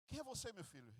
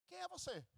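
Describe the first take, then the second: First: Put-on a touch of trembling, quieter, the old father asking again; hushed and uneasy, a hint of fear. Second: Put-on a much higher, softer startled question from the old father; old father asking. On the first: The old father, trembling, asking his son who he is, softer. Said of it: "O pai tremia". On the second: The blind father questioning the son who walks in, high and startled. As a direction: let the old man's voice jump up in surprise. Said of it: "E o pai disse assim".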